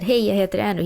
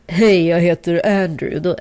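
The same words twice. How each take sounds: First: It is said in a higher-pitched voice. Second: It is said in a lower-pitched voice. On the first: The speaker calls it wrong. "first when I said" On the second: The speaker calls it right. "I had to lower my voice"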